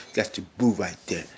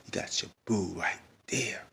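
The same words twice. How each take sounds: First: Said in the usual way. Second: Slow whispered echo. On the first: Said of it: "I was like". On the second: Pretend. Vlogger teasing Bobby under his breath, whispered. Whispered repeat of own quote.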